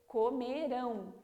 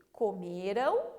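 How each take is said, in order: First: Comerão with a stronger, fuller ão; stronger ão ending. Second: Said in the usual way. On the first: Shown as a demonstration. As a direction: stress the final ão of comerão. (comerão falando o ão mais forte) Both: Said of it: "sempre falando mais forte".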